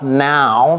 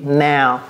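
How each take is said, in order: First: The vowel in now sounds plain. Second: The vowel in now sounds like an a. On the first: The speaker calls it wrong. "c'est pas now" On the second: The speaker calls it right. "c'est comme s'il y avait un A ici"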